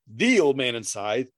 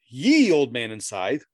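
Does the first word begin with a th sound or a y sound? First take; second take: th; y. First: The first word starts with a th sound. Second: The first word starts with a y sound. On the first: The speaker calls it right. "it is the old man and scythe" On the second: The speaker calls it wrong. "It is not ye old man and scythe"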